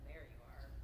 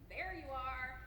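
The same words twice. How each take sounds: First: It is said in a flat, cold tone. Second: It is said in an exasperated, irritated tone. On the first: The speaker is not glad to see the person. "not like" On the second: The speaker has been searching and is annoyed. "your mom when she's been looking at you for ten minutes"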